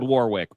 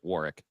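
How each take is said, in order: First: The middle w sound is pronounced. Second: The middle w sound is silent. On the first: This follows the written spelling. "It's spelled Warwick" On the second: This is how the man himself says it. "but he pronounces it Warwick"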